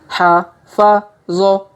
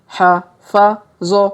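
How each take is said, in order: Both takes have the same delivery.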